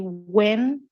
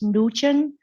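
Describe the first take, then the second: First: The name is said like 'when'. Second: The name is said like 'Nugent'. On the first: "If you say when, it's okay. It's acceptable" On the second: "a lot of people they might pronounce as Nugent, uh, but it's not correct"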